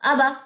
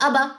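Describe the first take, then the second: The two takes are said the same way.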